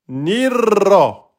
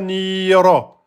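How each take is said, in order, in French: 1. Le i est court et le r est doublé. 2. La voyelle i s'allonge devant un seul r. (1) "j'insiste hein, sur le r" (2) "Il n'y a pas de prolongation là. C'est pas nira"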